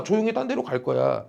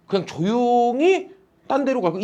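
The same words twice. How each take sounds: First: Quiet. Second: Said in the usual way. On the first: Shown as a demonstration.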